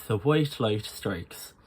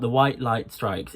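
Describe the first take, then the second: First: Irish I sound. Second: Said in the usual way. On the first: Shown as a demonstration. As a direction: round the I's halfway to OY, Irish style. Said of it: "just a little bit in the middle". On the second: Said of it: "and it's not".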